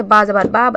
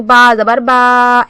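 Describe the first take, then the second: First: Said in the usual way. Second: Slow "बा जबर बा" with the vowels dragged out; drawn-out demo of a dragged "बा"; stretched vowels. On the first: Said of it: "हरकत को नहीं खींचना है". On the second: Shown as a demonstration. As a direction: overstretch each "बा". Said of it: "ऐसे नहीं पढ़ना है".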